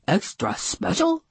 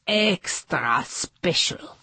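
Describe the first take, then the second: First: "extra special" higher, rising as a question; questioning echo. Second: EXTRA SPECIAL stretched slowly and grandly; drawn-out emphasis. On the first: Bellhop checking what the boss said, questioning echo. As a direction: echo "extra special" back, lifting at the end. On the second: Hotel boss announcing an important guest, drawn-out emphasis. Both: Acted.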